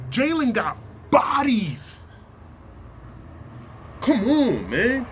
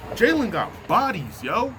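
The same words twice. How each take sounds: First: Emphatic shout. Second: Said in the usual way. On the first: Real, not acted. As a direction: hammer each word out slowly. Heated sports rant, insisting.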